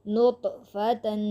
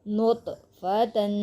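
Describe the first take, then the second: No difference in how they are said.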